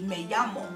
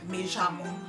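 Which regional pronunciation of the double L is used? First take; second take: American-taught; southern Argentine. First: The double L has the American-taught sound. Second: The double L is said like a 'y'. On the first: This is how it is taught in America. "when I learned Spanish here in America, they teach you" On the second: This is how it is said further south in Argentina. "in a couple hours lower of Argentina, they say, ya"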